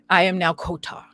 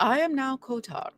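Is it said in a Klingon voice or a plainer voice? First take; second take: Klingon; plainer. First: It is said in a put-on Klingon voice. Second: It is said in a plainer, matter-of-fact voice.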